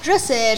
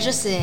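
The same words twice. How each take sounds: First: Said in the usual way. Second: "je sais" dropped low and quiet; soft murmur. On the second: Real, not acted. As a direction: mutter "je sais" under breath. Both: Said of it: "je sais repeated, fading".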